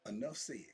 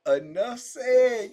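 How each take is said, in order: First: Said in the usual way. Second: Enough said said slowly through a laugh, louder. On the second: Real, not acted. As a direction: laugh it out, drawn out.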